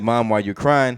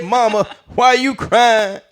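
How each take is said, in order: First: Said in the usual way. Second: High, slow, drawn-out comedian impression; Bernie Mac. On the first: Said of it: "I feel like it's a beautiful quote". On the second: Boy asks his mama in an adult comic's high, drawn-out voice. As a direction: stretch it out as a brash adult comic. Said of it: "reread it as Bernie Mac's voice".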